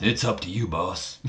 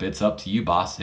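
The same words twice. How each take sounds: First: Badly faked wrestler's accent, soft and trailing off; Booker T accent. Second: Said in the usual way. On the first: Wrestler deferring to his boss, in a bad Booker T accent. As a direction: do a lightly put-on, horrible Booker T accent. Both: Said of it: "In my horrible Booker T accent".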